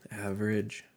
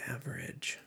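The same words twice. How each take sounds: First: Said in the usual way. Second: Whispered aside. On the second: Real, not acted. To himself while checking a fact, a whisper. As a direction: breathe the word to yourself.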